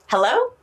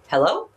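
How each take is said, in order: First: It is said in a happy tone. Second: It is said in a neutral tone.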